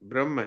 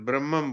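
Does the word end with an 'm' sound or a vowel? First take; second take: vowel; m sound. First: The word ends with a plain vowel sound. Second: The word ends with an extra 'm' sound. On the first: The speaker calls it right. "ब्रह्म है ये" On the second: The speaker calls it wrong. "ब्रह्मम बोल दिया"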